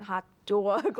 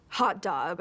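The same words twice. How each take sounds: First: 'hot dog' with a thick Brooklyn vowel, pushed and louder; heavy Brooklyn accent. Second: Brooklyn accent. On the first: Director coaching the actress on the Brooklyn accent. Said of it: "Like, really hit the accent". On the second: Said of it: "really hit the accent when you say". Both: Shown as a demonstration.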